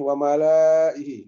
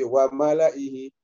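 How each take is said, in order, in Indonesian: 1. Vokal setelah L dibaca panjang. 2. Vokal setelah L dibaca pendek. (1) "dia akan baca panjang ini" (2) "tidak dibaca panjang meskipun ada alifnya"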